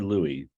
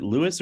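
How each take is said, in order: First: "Louis" pronounced like LOO-ee; Louis with silent S. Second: "Louis" pronounced like LOO-iss; Louis with sounded S. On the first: Host offering attendee the other option, "Louis" as LOO-ee. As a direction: say "Louis" the French way, final s silent. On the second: Host checking attendee's name, "Louis" said as LOO-iss. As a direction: say "Louis" as Lewis, final s sounded. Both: Shown as a demonstration. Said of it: "Is it Louis or Louis?".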